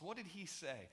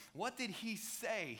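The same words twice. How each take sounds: First: Said in the usual way. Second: What did he say, drawn out slowly word by word; slow right down to land the question; slowed-down repeat. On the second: Shown as a demonstration. Preacher repeating the question slowly to the congregation.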